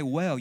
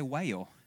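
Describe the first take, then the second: First: The vowel is short, as in 'bed'. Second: The vowel is drawn out, as in 'day'. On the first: "you don't say well" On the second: "you say whale"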